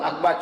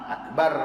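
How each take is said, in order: First: The r is hissed like an sh sound. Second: The r is rolled with several taps. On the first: The prayer is not valid. "tu tak sah... tu tafasyu... ni hang baca dengan sifat shin" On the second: The meaning does not change. "diulang-ulang itu tidak mengubah maknanya"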